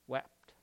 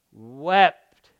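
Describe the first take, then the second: First: Soft, falling read of the word wept; quiet read. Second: "Wept." said louder and drawn out alone; emphatic repeat. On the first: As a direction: let wept drop away almost silent. Preacher reads Jesus wept, repeats. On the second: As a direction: land hard on the single word "Wept.". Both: A narrator's reading.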